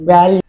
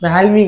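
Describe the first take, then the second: First: The word starts with a plain 'va' sound. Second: The word starts with a 'vya' sound. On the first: The speaker calls it right. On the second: The speaker calls it wrong.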